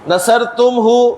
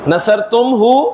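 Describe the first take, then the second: Both takes have the same delivery.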